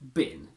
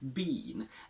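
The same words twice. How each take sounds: First: It has a short, reduced vowel. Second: It has a full, long vowel. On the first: "the weak form is been, just like the object where you throw things" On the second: "The strong form is been"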